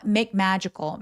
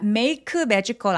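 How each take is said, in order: First: The k at the end of 'make' is unreleased. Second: The k at the end of 'make' is fully released. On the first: The speaker calls it right. "make라고 소리 내지 않았죠? 그냥 받침처럼만 처리합니다" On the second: The speaker calls it wrong. "아니고"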